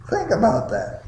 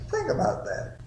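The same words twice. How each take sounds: First: Said in the usual way. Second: The same line again, much higher and softer; higher, softer repeat. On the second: Shown as a demonstration. Preacher repeats his charge to the congregation, higher and softer. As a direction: let it hang lightly upward.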